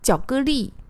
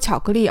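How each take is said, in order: First: The word is said in a cutesy tense way. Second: The word is said in a plain normal way. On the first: "而是说巧克力" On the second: "不说巧克力"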